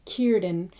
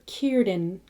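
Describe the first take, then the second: First: The first vowel sounds like the vowel in ear. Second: The same.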